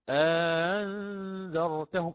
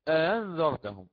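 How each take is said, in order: First: A long vowel separates the eased second glottal sound. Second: No long vowel separates the two glottal sounds. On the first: This follows the reading with inserted separation. "سهلت الهمزة الثانية وأدخلت ألفا أخرى بين الهمزتين" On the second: This follows the reading without inserted separation. "لو لم أقرأ بالإدخال"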